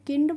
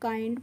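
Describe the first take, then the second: First: The vowel is a short 'i' sound. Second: The vowel is a long 'eye' sound. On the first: The speaker calls it wrong. "नहीं, इसको किंड नहीं पढ़ते हैं" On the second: The speaker calls it right. "काइंड पढ़ते हैं"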